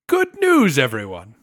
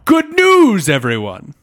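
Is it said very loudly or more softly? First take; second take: more softly; very loudly. First: It is said more softly, without distortion. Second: It is shouted very loudly, distorting the mic.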